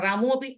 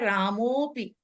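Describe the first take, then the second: First: The two words are said separately, unjoined. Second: The words are joined, with a lengthened vowel. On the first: The speaker calls it wrong. "वो थोड़ा हम्म ठीक नहीं लगता" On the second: The speaker calls it right. "एक मात्रा बढ़ाकर बोलेंगे"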